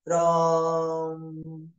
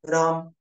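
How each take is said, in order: First: The word is stretched out and long. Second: The word is said short and clipped. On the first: "लंबा खिंच सकता है" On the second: "उच्चारण छोटा हो सकता है"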